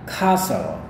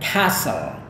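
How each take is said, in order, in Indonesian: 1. Ini diucapkan dengan aksen Inggris, a panjang. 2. Ini diucapkan dengan aksen Amerika, a pendek. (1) "kalau gaya British ini dia pakai a yang panjang" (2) "kalau gaya Amerika kayak gini"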